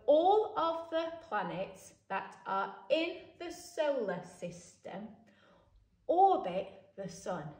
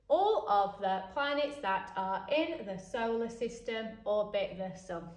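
First: The sentence is read at a slower pace. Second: The sentence is read at a quicker pace.

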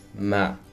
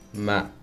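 First: The pitch starts low and falls. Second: The pitch starts low and falls.

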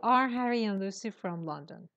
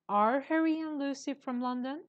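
First: The voice falls at the end, like a statement. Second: The voice rises at the end, like a question. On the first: It sounds like a statement. The speaker calls it wrong. "Don't say" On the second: It sounds like a question. The speaker calls it right. "That's a question. You have to have a question tone"

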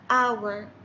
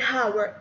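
First: The word begins with a vowel, h silent. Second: The word begins with an audible h sound. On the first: The speaker calls it right. "ال H ما تنطق" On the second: The speaker calls it wrong. "ما أقول hour خطأ"

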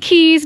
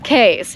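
First: It uses the local Bahamian pronunciation. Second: It follows the pronunciation the spelling suggests. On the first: "They're actually pronounced Keys down here in the Bahamas" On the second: "but it looks like it's Keys"

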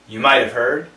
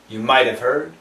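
First: The words are run together, with the h dropped. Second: The same.

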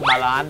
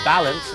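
First: The word is said with a Thai accent. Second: The word is said with an English accent.

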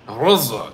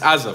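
First: It starts with a throaty, gargled G sound. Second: It starts with a plain, hard G sound. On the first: It mimics the Arabic pronunciation of the name. The speaker calls it wrong. "trying to say it in an Arabic accent" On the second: It is the ordinary English pronunciation of the name. The speaker calls it right. "It's Gaza, folks"

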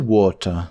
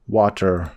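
First: The r at the end is not pronounced. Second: The r at the end is pronounced. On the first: "А британці water" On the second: "американці"

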